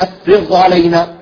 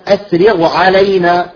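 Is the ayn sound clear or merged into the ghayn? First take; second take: merged; clear. First: The ayn is merged into the ghayn and lost. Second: The ayn is pronounced clearly after the ghayn. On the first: The speaker calls it wrong. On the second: The speaker calls it right.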